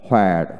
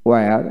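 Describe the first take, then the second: First: হোয়ার with an audible h first; হোয়ার starting on breathed hw; American h pronunciation. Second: ওয়্যার starting on w, no h; ওয়্যার with a plain w onset; British w pronunciation. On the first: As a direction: sound the h in হোয়ার. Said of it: "আমেরিকানে হ". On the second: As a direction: drop the h in ওয়্যার. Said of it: "British উচ্চারণে". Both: Shown as a demonstration.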